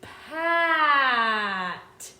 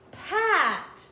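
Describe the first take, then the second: First: It is said slowly, sounds stretched out. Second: It is said faster, sounds blended together.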